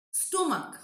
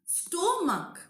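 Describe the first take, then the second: First: Said in the usual way. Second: "Stomach" pulled apart, sto... mach; syllable by syllable. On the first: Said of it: "we are pronouncing at a stretch". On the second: Shown as a demonstration. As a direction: lengthen and separate the two halves of "Stomach". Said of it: "We can take a break in between".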